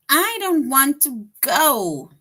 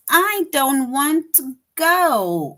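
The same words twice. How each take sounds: First: Emphatic exclamation. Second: Louder, slow, emphatic refusal; strong exclamation. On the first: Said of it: "That shows strong feelings". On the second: Teacher showing the exclamation answer, loud slow refusal. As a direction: say it with strong feeling. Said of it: "that is an exclamation". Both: Shown as a demonstration.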